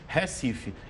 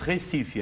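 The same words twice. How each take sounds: First: It is said with a northeastern Brazilian accent. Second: It is said with a southern Brazilian accent. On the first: "você vai dizer no norte, no nordeste" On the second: "você diz Recife aqui no sul"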